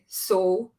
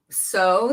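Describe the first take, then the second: First: The vowel is missing its beginning part. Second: The vowel has its full gliding start. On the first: "they just say so. It's like missing the beginning part" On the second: "instead of saying like um so"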